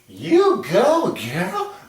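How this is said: It is said with a lively, musical tune.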